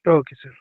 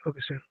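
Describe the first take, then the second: First: Loud "Okay, sir", punchy and falling; loud mock salute. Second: Much softer "Okay, sir", almost under the breath; quiet echo. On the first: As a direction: bark "Okay, sir" out like answering an officer. First of two takes. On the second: Acted. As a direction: repeat "Okay, sir" as a hushed afterthought. Echo of the loud take.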